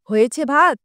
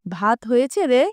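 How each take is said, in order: First: It is shouted loudly. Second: It is said at normal volume.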